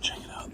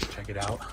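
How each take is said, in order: First: Hushed whisper. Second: Said in the usual way. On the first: Real, not acted. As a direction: whisper so staff won't hear. Hiding in freezer at night.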